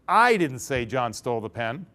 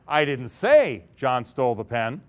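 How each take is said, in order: First: The stress is on I. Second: The stress is on say.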